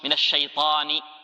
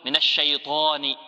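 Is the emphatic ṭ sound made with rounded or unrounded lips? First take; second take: unrounded; rounded. First: The ṭ is emphatic and the lips stay unrounded. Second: The ṭ is made with rounded lips. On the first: The speaker calls it right. "وهكذا تتدرب" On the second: The speaker calls it wrong. "هذا خطأ"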